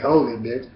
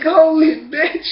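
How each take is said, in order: First: Said in the usual way. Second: High, loud, slow stunned cry; stunned exclamation. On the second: Retold or imitated. After being slapped hard, a high stunned cry. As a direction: reel from the slap and cry it out. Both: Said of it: "I'm like".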